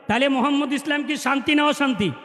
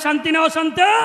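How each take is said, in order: First: It is said at normal, softer volume. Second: It is said louder, with more force.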